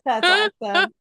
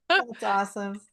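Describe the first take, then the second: First: Much higher and louder, thrilled; delighted. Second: Said in the usual way. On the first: Real, not acted. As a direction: burst out with delight. Host reacts to sweet story.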